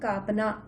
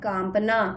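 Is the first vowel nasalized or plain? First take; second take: plain; nasalized. First: The first vowel is said without nasal sound. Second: The first vowel is said through the nose. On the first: "अगर हम कांपना में चंद्र बिंदु ना लगाते तो हम कैसे पढ़ते हैं उसे?" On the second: "इसमें विशेष प्रकार का नाद आ गया है"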